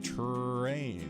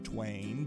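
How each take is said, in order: First: A strong, clear R follows the T. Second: The R is replaced by a W sound. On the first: This models the sound for children to hear. "We say terrain and share that hard R" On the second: This is how young children say it. "So they'll say twain"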